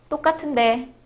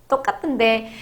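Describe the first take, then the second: The two takes are said the same way.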